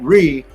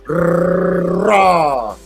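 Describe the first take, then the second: First: The syllable is said with an 'ee' vowel. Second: The syllable is said with an 'aw' vowel. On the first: The speaker calls it wrong. "not re" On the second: The speaker calls it right. "Start saying raw and, roll it with your tongue"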